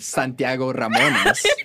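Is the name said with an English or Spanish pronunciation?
Spanish. The name is said with a Spanish pronunciation. The speaker calls it right. "whenever I should be saying"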